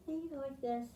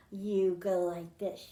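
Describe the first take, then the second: First: Softer, drowsy "this" as if half asleep; sleepy soothing voice. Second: Said in the usual way. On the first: Shown as a demonstration. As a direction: drop it to a hush like a mother dog. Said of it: "telling her puppy to go to sleep". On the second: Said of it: "To say goodnight to your dog".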